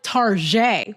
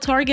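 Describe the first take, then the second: First: It is said with a fake French accent. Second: It is said with a plain American accent.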